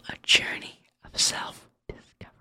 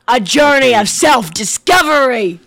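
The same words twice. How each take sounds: First: It is said at a normal, softer volume. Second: It is said much louder.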